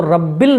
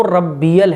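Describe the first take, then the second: First: Short two-syllable "रब्बिल"; mistaken pronunciation. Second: "रब्बियल" opened into three clear syllables; correct pronunciation. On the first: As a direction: clip "रब्बिल", leaving out the "य". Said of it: "तो रब्बिल नहीं है". ("रब्बिल" गलत, छोटा उच्चारण) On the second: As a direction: sound the long "बी" then "यल" in "रब्बियल". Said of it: "वो रब्बियल है।". ("रब्बियल" साफ़, सही उच्चारण) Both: Shown as a demonstration.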